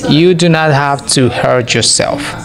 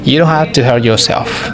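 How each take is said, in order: First: "Do not" is said as two full words. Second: "Do not" is contracted to "don't". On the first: "de forma normal base sin contracción" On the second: "Para hablar mucho más rápido"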